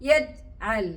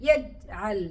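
No difference in how they are said.

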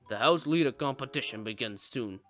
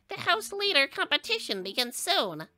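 First: It is said in a calm announcer voice. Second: It is said in a nervous announcer voice.

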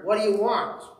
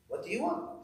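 First: The question sounds mean and curt. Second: The question sounds nice and gentle.

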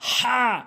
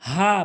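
First: The h comes from the middle of the throat. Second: The h is a plain breathy h. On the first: The speaker calls it right. "সঠিক উচ্চারণ" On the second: The speaker calls it wrong. "ভুল উচ্চারণ"

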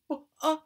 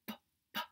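First: The b sound has an added uh vowel. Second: The b sound is short with no added vowel. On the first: The speaker calls it wrong. "We don't want to go buh-uh" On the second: The speaker calls it right. "We want to go buh-buh"

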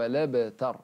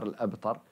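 First: The glottal stop is dropped; its vowel joins 'l'. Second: The glottal stop at the start is pronounced. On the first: The speaker calls it right. "يقر إن شانئك هو لابتر" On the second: The speaker calls it wrong. "ورش خاطي يقر الأبتر"

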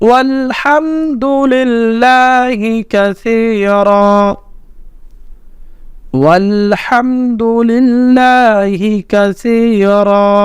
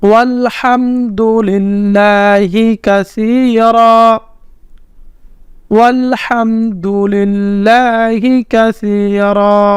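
The two takes are said the same way.

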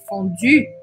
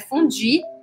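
First: The final vowel is a rounded French u. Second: The final vowel is a spread-lip i sound. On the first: The speaker calls it right. "é fondue" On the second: The speaker calls it wrong. "Não é fondue"

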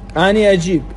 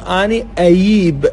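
First: The verb is said with a j sound. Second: The verb is said with a y sound.

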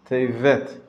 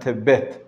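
First: The middle consonant is a V sound. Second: The middle consonant is a B sound. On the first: The speaker calls it right. "Tevet it should be" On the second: The speaker calls it wrong. "not Tebet"

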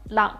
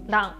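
First: The first consonant is a quick tongue flap. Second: The same.

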